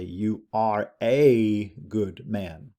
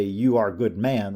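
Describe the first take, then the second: First: Slow, with weight on the article "a"; stress on a. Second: Said in the usual way. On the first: Shown as a demonstration. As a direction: lean on "a" in "you are a good man". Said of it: "we have to say". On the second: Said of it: "we can't just say".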